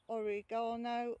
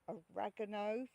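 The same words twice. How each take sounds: First: It is said with a British pronunciation. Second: It is said with an American pronunciation.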